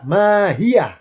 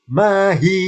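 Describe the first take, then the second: First: "mahiyah" raised, closing on a breathed yah; with final ha. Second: "mahi" raised, ending on an open hi; without final ha. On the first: Teacher showing how it sounds with ha, yah ending. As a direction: add -yah with an audible h to end mahiyah. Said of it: "Kalau pakai ha". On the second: Teacher showing how it sounds without ha, open ending. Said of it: "kalau nggak pakai ha". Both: Shown as a demonstration.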